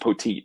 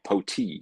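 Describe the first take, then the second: First: The name ends with a clear final T sound. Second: The name ends in a vowel, no final T. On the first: The speaker calls it right. "he confirmed that was the correct pronunciation" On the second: The speaker calls it wrong. "P A guy was saying like Poti"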